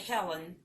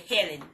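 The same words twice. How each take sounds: First: The name is said in a standard accent. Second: The name is said in a country accent.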